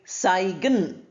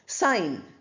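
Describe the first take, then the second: First: A g sound is heard in the middle. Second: No g sound is heard at all. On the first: The speaker calls it wrong. "We don't say saigan" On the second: The speaker calls it right. "G is not pronounced here"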